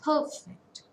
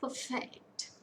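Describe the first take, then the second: First: "perfect" with PER high and strong; PER-fect, second syllable dropping away; first-syllable stress. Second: "perfect" as per-FECT; light PER, full weight on FECT in "perfect"; second-syllable stress. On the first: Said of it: "If it is a noun". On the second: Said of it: "And for a verb". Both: Shown as a demonstration.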